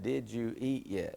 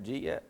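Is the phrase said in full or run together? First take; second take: full; run together. First: Each word is said separately and in full. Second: The words are squeezed together into two syllables. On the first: "Think about it" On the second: "Do you know that Southern word yet?"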